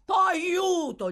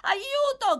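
First: Loud, high imitation of a cry; mocking echo. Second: Put-on very high, loud boy's yell; desperate cry for help. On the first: The man echoes Oliver's plea, mockingly. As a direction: throw the boy's plea back at him. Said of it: "gli fece eco quest'ultimo". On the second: Oliver struggles to break free, shouting desperately. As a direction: yell for rescue at the top. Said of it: "gridò Oliver". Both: A narrator's reading.

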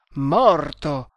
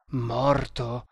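First: "Morto!" cried out much louder in grief; sobbing cry. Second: "Morto?" asked hushed, as if not believing; a broken, disbelieving question; stunned sob. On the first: Master grasping that his friend is dead, crying out. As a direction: burst out in despair. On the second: Master hearing of a friend's death, stunned and tearful. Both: A narrator's reading. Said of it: "singhiozzò".

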